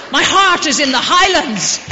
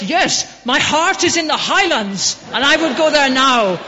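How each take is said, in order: First: Full-throated shout, "heart" hit hardest; the climax of the poem, yelled high and proud; shouted recitation. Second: Rising fervour, the voice lifted high and loud; impassioned recitation. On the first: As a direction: bellow the line out to the whole street. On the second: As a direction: declaim the poem like a proud Russian fan. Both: Retold or imitated. Russian stranger recites Burns in street.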